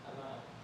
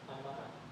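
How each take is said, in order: First: The words are contracted and run together. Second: The words are contracted and run together.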